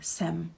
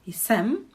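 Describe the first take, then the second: First: The word starts without the j sound. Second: The word starts with a j sound. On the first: "we just say jsem" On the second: "It's not wrong to say jsem, but it's again putting quite a, too much effort"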